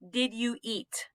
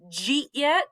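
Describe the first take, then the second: First: Each word is pronounced fully and separately. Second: The words are squeezed together into a reduced form. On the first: "The D sound" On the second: "He said, Jeet yet?"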